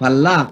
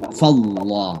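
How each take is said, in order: First: The l in Allah is light and thin. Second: The l in Allah is heavy and deep. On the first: The speaker calls it wrong. "jangan dibaca fallah" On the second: The speaker calls it right. "tebal, ya, dibaca tebal"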